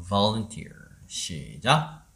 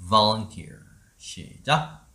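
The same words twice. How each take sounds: The two takes are said the same way.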